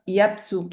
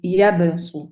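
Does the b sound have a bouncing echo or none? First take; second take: none; bounce. First: The b has no bouncing echo. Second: The b has a short bouncing echo. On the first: The speaker calls it wrong. "I cannot hear the qalqala. It's not يبسط" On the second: The speaker calls it right. "it's يبسط"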